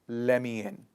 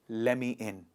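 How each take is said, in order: No difference in how they are said.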